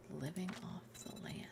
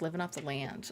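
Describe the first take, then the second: First: Slow breathy whisper, barely voiced. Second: Said in the usual way. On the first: Shown as a demonstration. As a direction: whisper it slowly like a secret. Repeats phrase whispering.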